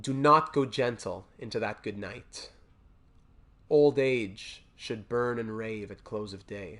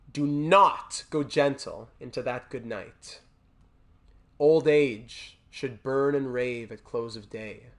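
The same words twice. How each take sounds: Both takes have the same delivery.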